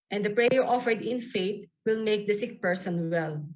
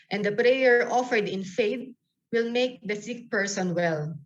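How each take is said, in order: The two takes are said the same way.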